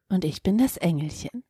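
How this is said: It sounds like the computer voice Siri.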